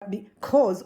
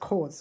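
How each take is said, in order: First: The word is said in its full form. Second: The first syllable is dropped from the word.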